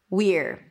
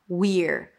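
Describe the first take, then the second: First: It has a high ee vowel before the r. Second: The same.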